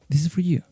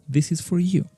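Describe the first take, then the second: First: The word 'for' is reduced to 'fur'. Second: The word 'for' has a full vowel. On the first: "But most frequently, you are going to listen" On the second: "It's acceptable. You can say"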